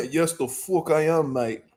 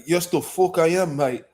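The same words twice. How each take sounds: First: Drawn-out, softer mock British accent trailing off; British accent, slower. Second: Cocky mock British accent, quick and proud. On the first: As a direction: relish it in a slower British accent, almost laughing. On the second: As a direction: answer like a Londoner who's been recognised. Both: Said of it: "I'm like".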